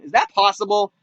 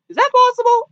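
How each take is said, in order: First: Said in the usual way. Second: Very high, squeaked question; squeaky disbelief. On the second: Retold or imitated. Viewer questioning the phone hacking, squeaky mock disbelief. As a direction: jump way up into a mock-incredulous squeak.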